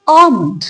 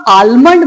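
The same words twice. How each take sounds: First: आमंड said AA-mund, L dropped; correct pronunciation. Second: आलमंड said aal-mund with L sounded; full L. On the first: Teacher giving the form to use, silent L. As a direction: glide from AA into M in आमंड. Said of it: "उसको पढ़िए". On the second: Teacher showing what to avoid, full L. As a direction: pronounce every letter of आलमंड. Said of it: "उसको पूरा आलमंड मत पढ़िए". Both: Shown as a demonstration.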